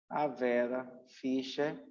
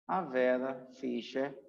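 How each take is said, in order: Both takes have the same delivery.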